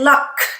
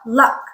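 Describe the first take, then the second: First: The final k is released with a puff of air. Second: The final k is released without a puff of air. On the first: The speaker calls it wrong. "we don't say luck" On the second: The speaker calls it right. "It's a softer sound. Doesn't have that aspiration"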